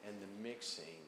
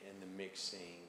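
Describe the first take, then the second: No difference in how they are said.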